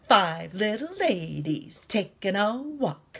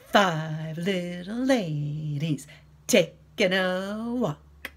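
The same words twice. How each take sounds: First: It is said at normal speed. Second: It is said very slowly.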